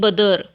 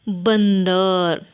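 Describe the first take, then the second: First: The first vowel is said without a nasal sound. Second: The first vowel is followed by a nasal sound. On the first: "बदर भी थोड़ा सा अजीब लग रहा है ना" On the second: "ब पर अनुस्वार देंगे तो क्या होगा"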